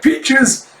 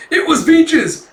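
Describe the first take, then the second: First: High, loud questioning repeat; acted startled query; surprised echo. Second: Very high, loud exclamation; acted breathless-sounding excitement; excited announcement. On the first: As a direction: echo the word in high disbelief. Master echoes the news. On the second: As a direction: burst in with the news, high and loud. Apprentice running back with news.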